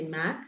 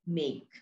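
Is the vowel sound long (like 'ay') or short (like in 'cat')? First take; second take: short; long. First: The vowel is short, as in 'cat'. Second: The vowel is long, as in 'day'. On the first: The speaker calls it wrong. "We don't say Mac" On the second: The speaker calls it right. "So we read it as make"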